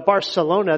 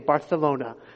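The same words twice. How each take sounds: First: The 'c' is said with an 's' sound. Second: The 'c' is said with a 'th' sound.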